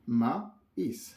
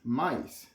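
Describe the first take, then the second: First: The word is split into two separate parts. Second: The word is said smoothly as one unit.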